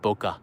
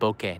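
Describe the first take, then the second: First: The word ends in an 'ah' vowel. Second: The word ends in an 'eh' vowel. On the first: The speaker calls it wrong. "not boka" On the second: The speaker calls it right. "It's actually pronounced bokeh"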